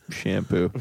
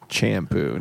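First: Shampoo said with a soft sh at the start; correct shampoo. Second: Shampoo said as champoo, a ch sound at the start; mispronounced shampoo. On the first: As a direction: say shampoo properly with sh. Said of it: "not champ". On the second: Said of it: "he is saying". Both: Retold or imitated.

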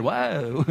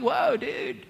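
First: Short Valdosta, Georgia drawl; a put-on small-town Valdosta accent. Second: High-pitched Southern California surfer-style exclamation; Southern California dude. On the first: Preacher imagining Isaiah from Valdosta, put-on Valdosta accent. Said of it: "If he was from, like, Valdosta". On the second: Acted. Preacher imagining Isaiah from Southern California, SoCal dude accent. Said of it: "If he was from Southern California".

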